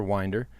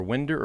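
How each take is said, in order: First: "Winder" said as WINE-der; "Winder" rhyming with finder; long-i pronunciation. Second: "Winder" said as WIN-der; "Winder" rhyming with cinder; short-i pronunciation. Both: Shown as a demonstration. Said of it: "I'll probably mess that name up".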